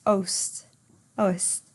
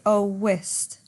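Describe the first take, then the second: First: "oest" run together as ohst; satu suku kata. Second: "owest" as oh-west; dua suku kata. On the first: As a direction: squeeze "oest" into one syllable, ohst. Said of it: "one syllable". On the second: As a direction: say "owest" in two syllables, oh-west. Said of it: "two syllables". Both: Shown as a demonstration.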